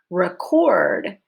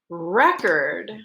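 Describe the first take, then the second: First: The stress is on the second syllable. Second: The stress is on the first syllable. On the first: It is used as a verb. "Record is a verb. ... your stress is on syllable number two with a long O" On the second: It is used as a noun. "record is a noun. Stress is on the first syllable"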